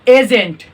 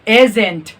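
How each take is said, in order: Both takes have the same delivery.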